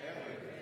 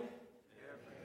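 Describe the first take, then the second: First: The word is said loudly. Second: The word is said at normal volume.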